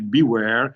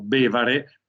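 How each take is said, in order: First: It is pronounced with English vowels and a w sound. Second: It is read letter by letter like Italian, with a v sound. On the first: It is the project's English name. "pronunciamo con un buon inglese come beware" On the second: It becomes the Venetian dialect word for drinking. "se lo leggete come sta scritto viene fuori la parola in dialetto veneto bevare"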